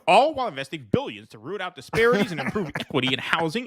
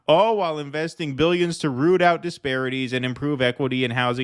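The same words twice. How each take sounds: First: It is read in a put-on character voice. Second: It is read in the speaker's ordinary voice.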